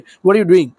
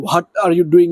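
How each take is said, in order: First: It is said smoothly and naturally. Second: It is said in a stiff, unpolished way.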